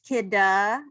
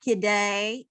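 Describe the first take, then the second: First: The name ends in an 'uh' sound. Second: The name ends in an 'ay' sound. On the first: The speaker calls it right. "It is Kidda" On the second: The speaker calls it wrong. "It is not Kidday"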